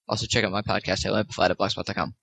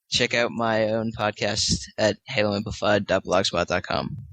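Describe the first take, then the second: First: It is said very fast. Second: It is said at normal speed.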